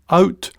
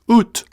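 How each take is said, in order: First: It has the standard English 'ow' vowel. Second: It has a Scots 'oo' vowel.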